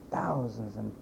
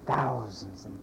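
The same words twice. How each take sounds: The two takes are said the same way.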